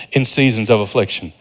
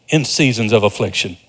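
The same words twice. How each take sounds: The two takes are said the same way.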